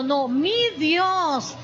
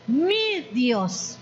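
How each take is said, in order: First: "mi" leaned on, whole phrase slowed right down; stress on mi. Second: Said in the usual way. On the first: Shown as a demonstration. Preacher insists God is hers, stressing "mi" slowly. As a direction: hit "mi" slow and deliberate, my own God. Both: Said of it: "No es el Dios de aquel fulanito".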